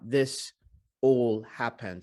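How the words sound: The words are broken into separate choppy chunks. The speaker calls it wrong. "Not this all happened. ... he's not speaking English in a chunky way"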